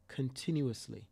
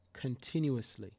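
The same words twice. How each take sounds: The two takes are said the same way.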